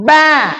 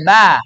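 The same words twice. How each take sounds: First: "Ba" higher, lips pressed too hard before release; over-pressed BA, wrongly. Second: Said in the usual way. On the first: Shown as a demonstration. Teacher showing lips pressed too tightly, forced higher "Ba". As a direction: squeeze the b, then pop "Ba". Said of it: "Bukan begitu". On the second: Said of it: "Biasa saja, ba".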